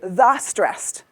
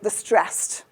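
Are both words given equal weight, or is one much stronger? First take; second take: equal; one stronger. First: Both words get roughly equal length and loudness. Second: 'Stressed' is much longer and louder than 'the'. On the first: The speaker calls it wrong. "I don't say the stressed" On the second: The speaker calls it right. "The becomes a one in the ratio and stressed becomes a three"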